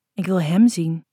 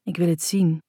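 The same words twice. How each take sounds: First: Emphatic "hem", the rest unstressed; stress on "hem". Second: Said in the usual way. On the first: A narrator's reading. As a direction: lean firmly on the word "hem". Corrects 'het' to 'hem'.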